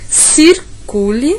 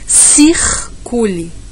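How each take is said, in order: First: The r is a quick tap of the tongue. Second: The r is dragged out as a throaty sound. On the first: "aquela passada rápida, como na, na capital paulista" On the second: "no Nordeste a gente fala circule, a gente dá uma arrastadinha"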